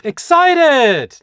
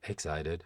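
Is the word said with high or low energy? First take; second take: high; low. First: The word is said with lively, high energy. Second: The word is said flatly, with little energy. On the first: The speaker calls it right. "we need excited" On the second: The speaker calls it wrong. "not excited"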